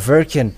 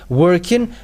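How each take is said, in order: First: The word begins with a V sound. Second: The word begins with a W sound. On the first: "or Verkin" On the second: "when you say working"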